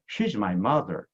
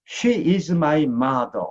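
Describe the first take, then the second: First: It is said in a native English-style delivery. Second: It is said in a flat Korean-style delivery. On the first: The speaker calls it right. "영어로 할게요" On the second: The speaker calls it wrong. "한국말"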